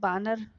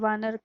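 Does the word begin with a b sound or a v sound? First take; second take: b sound; v sound. First: The word begins with a b sound. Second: The word begins with a v sound. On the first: This is the Magahi form. "वो बानर उच्चारण करते हैं" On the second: This is the Hindi form. "वानर का व उच्चारण ना होकर"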